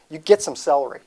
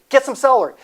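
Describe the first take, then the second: First: Said in the usual way. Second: Excited. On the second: Shown as a demonstration. Hyping up the celery table.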